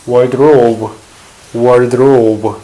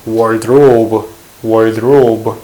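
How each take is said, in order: No difference in how they are said.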